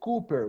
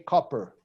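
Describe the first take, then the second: First: The first vowel is a long 'oo' sound. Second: The first vowel is a short 'o' sound. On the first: The speaker calls it wrong. "we don't say Cooper" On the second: The speaker calls it right. "we say copper"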